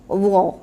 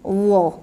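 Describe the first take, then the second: First: The consonant sounds thick, with rounded sour mouth. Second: The same.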